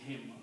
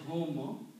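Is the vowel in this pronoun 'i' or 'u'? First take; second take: i; u. First: The pronoun is said with an 'i' vowel. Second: The pronoun is said with a 'u' vowel. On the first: "because this is a ya, which is sound of kasra, this is pronounced as him" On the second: "the next word is hum"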